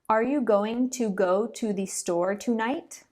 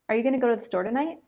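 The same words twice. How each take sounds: First: Each 'to' has a full, long oo vowel. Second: Each 'to' is reduced to a weak schwa. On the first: The speaker calls it wrong. "Pronouncing it the first way actually takes a lot more effort ... it just sounds robotic and unnatural" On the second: The speaker calls it right. "My lips hardly even move when I say the second se- sentence"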